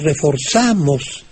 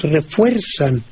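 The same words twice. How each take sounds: First: "reforzamos" as re-for-ZA-mos; stress on ZA. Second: "refuerzan" as re-FUER-zan, drawn out; stress on FUER. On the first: Maestro illustrates the accent rule, "reforzamos" stressed on ZA. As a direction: lean on the za of "reforzamos". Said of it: "el acento cae en la A". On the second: Maestro illustrates the accent rule, "refuerzan" stressed on FUER. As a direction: lean slowly on fuer in "refuerzan". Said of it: "vuelve a caer el acento". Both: Shown as a demonstration.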